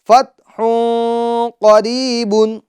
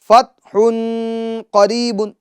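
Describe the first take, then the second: First: The n after 'fath' is hidden in nasal sound. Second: The n after 'fath' is pronounced clearly. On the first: The speaker calls it right. "नाक में आवाज ले जानी है" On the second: The speaker calls it wrong. "जो तनवीन का नून साकिन है उसको जाहिर किया जा रहा है"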